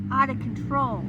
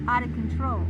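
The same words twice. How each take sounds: First: Loud, stressed out of control; emphatic. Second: Out of control dropped low and loud; low emphatic repeat. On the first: Explaining hysteria, stressing out of control, loud and emphatic. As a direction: stress the words hard. Repeated phrase, first take. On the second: Repeating for viewers, out of control low and loud. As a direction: repeat it deep and heavy. Repeated phrase, lower take. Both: Real, not acted.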